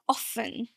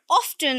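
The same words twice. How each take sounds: First: The T sound is silent. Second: The T sound is clearly pronounced. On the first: "Without a T" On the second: "Now with the T"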